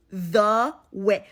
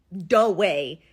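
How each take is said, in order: First: "the way" with a careful th sound; consciously shape a clean th in "the way"; deliberate standard pronunciation. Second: "the way" with a d sound, "duh way"; habitual local pronunciation. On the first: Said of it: "I have to actively change the shape of my mouth". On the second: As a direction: turn the th of "the way" into d. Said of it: "that's just the way". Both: Shown as a demonstration.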